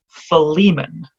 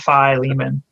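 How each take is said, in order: First: The first vowel is a soft, short 'i' sound. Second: The first vowel is a long, hard 'eye' sound. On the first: The speaker calls it right. "probably the better way to say it is Philemon" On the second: The speaker calls it wrong. "that's sort of a British pronunciation"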